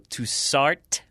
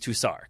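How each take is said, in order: First: The final consonant is clearly pronounced. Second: The final consonant is left silent. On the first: The speaker calls it wrong. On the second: The speaker calls it right.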